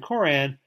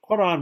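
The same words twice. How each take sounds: First: It begins with a plain English k sound. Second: It begins with a deep throat q sound. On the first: "rather than" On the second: "to pronounce it correctly in Arabic"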